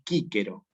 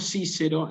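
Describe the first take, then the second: First: Both c's are said as hard k sounds. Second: Both c's are said as soft s sounds. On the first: This is the classical Latin pronunciation. The speaker calls it right. "en latín clásico se pronuncia así" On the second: This is considered a serious error in Latin. The speaker calls it wrong. "en latín es considerado un error grave"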